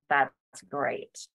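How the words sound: It sounds sour and displeased.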